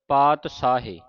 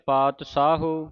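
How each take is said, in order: First: It uses a 'sh' sound and ends in 'e'. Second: It uses a 'sh' sound and ends in 'u'. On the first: "ਕਈ ਸੰਗਤਾਂ ਤਿੰਨ ਤਰ੍ਹਾਂ ਦਾ ਉਚਾਰਨ ਕਰ ਜਾਂਦੀਆਂ" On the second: "ਕਈ ਸੰਗਤਾਂ ਤਿੰਨ ਤਰ੍ਹਾਂ ਦਾ ਉਚਾਰਨ ਕਰ ਜਾਂਦੀਆਂ"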